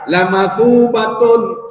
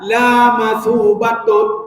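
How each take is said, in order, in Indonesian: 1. Vokal pada la pendek. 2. Vokal pada la panjang. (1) "sungguh dia akan dapat pahala yang banyak" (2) "dia tidak akan pernah dapat pahala"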